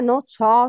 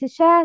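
First: The sh sound is heavy and thick. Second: The sh sound is light and thin. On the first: The speaker calls it wrong. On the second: The speaker calls it right. "Sheen is always murakkaka. It's sha"

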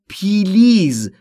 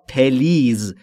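First: A long ee vowel splits the p and l. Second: A short e vowel splits the p and l. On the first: "خیلی از زبان آموزا به اشتباه تلفظ میکنن پیلیز" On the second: "این دو تلفظ اشتباهه"

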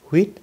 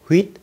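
No difference in how they are said.

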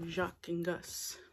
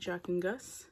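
First: The name is said with a foreign accent. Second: The name is said plainly, without an accent. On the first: The speaker calls it right. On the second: The speaker calls it wrong.

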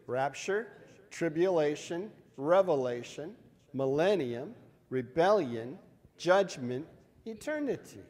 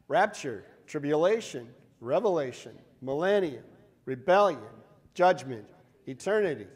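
First: The list is said slowly. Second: The list is said faster.

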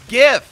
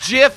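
First: The word begins with a hard G sound. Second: The word begins with a soft J sound. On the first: The speaker calls it wrong. "not GIF! Wow, they even got that wrong" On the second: The speaker calls it right. "Jif, not GIF!"

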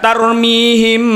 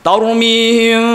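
First: The m is said with lips fully closed. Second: The m is held loosely with lips slightly apart. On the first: The speaker calls it wrong. "bukan tarmihim, tidak dimingkemkan semua" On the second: The speaker calls it right. "yang tepat"

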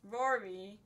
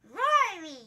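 First: It is said in the speaker's ordinary voice. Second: It is said in a put-on character voice.

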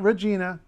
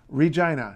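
First: The middle syllable sounds like 'jee', rhyming with 'see'. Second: The middle syllable sounds like 'jye', rhyming with 'eye'. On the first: The speaker calls it wrong. "not Regina, nothing like that" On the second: The speaker calls it right. "Regina, not Regina"

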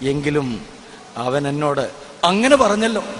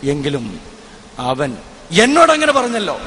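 First: The stress falls on the word അങ്ങനെ. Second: The stress falls on the word എന്നോട്. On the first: The surprise is about the manner of what was said. "മൂന്നാമത്തത്" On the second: The surprise is about whom it was said to. "രണ്ടാമതും അതേ കാര്യം ഞാൻ ഊന്നിപ്പറയുന്നു"

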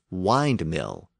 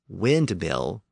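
First: The first syllable has a long vowel, rhyming with 'kind'. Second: The first syllable has a short vowel, rhyming with 'tinned'. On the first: This is not how the word was said historically. The speaker calls it wrong. "not windmill" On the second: This is how the word was actually said historically. The speaker calls it right. "the word windmill was pronounced windmill"

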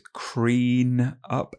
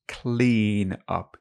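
First: The first word starts with an R sound. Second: The first word starts with an L sound. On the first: The speaker calls it wrong. "She says clean up" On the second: The speaker calls it right. "instead of clean up"

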